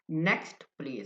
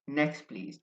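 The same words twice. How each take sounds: First: The t sound in 'next' is pronounced. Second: The t sound in 'next' is dropped. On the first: This is how non-native speakers say it. "I may sound like an Indian or a Pakistani guy" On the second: This is how native speakers say it. "They drop the T sound"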